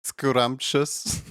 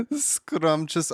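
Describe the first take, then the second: First: Said in the usual way. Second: Much higher, laughing scrumptious. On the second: Shown as a demonstration. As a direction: say scrumptious through a high laugh. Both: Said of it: "Please use the word scrumptious".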